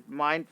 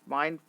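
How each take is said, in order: The two takes are said the same way.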